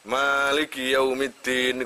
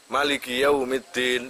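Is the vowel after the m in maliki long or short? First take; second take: long; short. First: The vowel after the m is held long. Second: The vowel after the m is short. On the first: "Bisa mimnya ada alifnya" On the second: "bisa mimnya nggak ada nggak ada alif"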